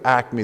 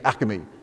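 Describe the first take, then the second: First: The word is said with two syllables. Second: The word is said with three syllables. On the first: The speaker calls it right. "the right way" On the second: The speaker calls it wrong. "It's three syllables"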